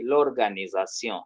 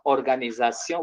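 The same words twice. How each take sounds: First: "l'organisation" joined, starting "lor-"; French elision. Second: "organisation" the French way, ending "-syon"; French pronunciation without article. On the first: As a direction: glue the L onto "organisation". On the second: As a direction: say bare "organisation" in French, starting on O. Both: Shown as a demonstration. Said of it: "we say".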